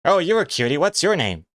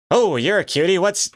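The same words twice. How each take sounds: First: Squeaky woman cooing at a pet; sweet falsetto lady asking a name. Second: High falsetto lady voice, breaking off; squeaky woman's voice, cut short; playful falsetto lady. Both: Pretend. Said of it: "Let's hear your lady voice".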